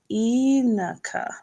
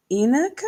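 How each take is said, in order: First: "Inaka" sounded out, first syllable stressed, falling end; phonetic sounding-out. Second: "Inaka" with first-syllable stress, rising like a question; questioning pronunciation. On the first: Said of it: "So emphasis on first syllable". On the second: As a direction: ask "Inaka?" tentatively, lifting the end. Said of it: "So do you pronounce it". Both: Shown as a demonstration.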